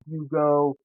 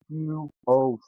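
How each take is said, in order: First: The two parts run together as one word. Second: The two parts are said separately with a break. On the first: The speaker calls it wrong. "It's not Hugo" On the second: The speaker calls it right. "It's Hugh to the O to the Smith"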